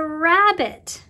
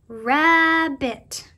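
First: Said in the usual way. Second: "rabbit" drawn out loudly in two parts, rab-bit; split into syllables. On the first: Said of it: "When you say the word". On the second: Shown as a demonstration. Teacher shows children two parts to that word, "rabbit" split in syllables. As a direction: stretch "rabbit" so both syllables stand out. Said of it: "you hear two syllables or two parts".

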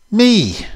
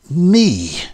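First: High, loud exclamation; sharp rise in pitch and volume, incredulous; startled cry. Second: Loud, high, bitter exclamation; bitterly indignant outburst; bitter cry. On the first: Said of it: "cried Annie". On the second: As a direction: throw it back with terrible bitterness. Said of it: "bitter accent". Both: A narrator's reading.

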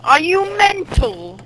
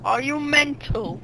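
First: Higher, slow mock British accent. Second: Softer, slow mock British accent. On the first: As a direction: squeak "Are you mental?" slowly in a mock British accent. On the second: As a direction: say "Are you mental?" softly and slowly in a mock British accent. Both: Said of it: "That's British".

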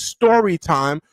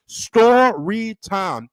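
First: Said in the usual way. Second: "story time" stretched slow and higher; drawn-out announcement. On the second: Real, not acted. Host announcing the segment to viewers, drawn-out announcement. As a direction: draw out each syllable of "story time". Drawn-out repeat of show title.

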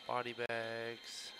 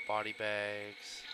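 The two takes are said the same way.

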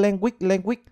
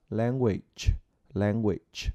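First: "language" said quickly with a clipped, swallowed end. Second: "language" slow and soft with a full ending; correct language. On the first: Teacher imitating students' sloppy language. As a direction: rush "language" and drop its ending. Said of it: "Cứ". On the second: Teacher modelling language correctly. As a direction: finish "language" gently with the dzh ending. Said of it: "Đó là". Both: Shown as a demonstration.

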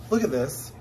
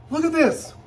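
First: Said in the usual way. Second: Excited high-pitched squeal; delighted squeal. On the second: Real, not acted. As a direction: look at this squealed much higher and louder. Reveal of the bag.

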